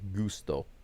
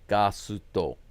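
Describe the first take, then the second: First: It is said in two syllables, goo-sto. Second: It is said in three syllables, ga-su-to. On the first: This is the original Spanish form. "the Spanish way" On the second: This is how it is said in Japanese. "But but they say ga"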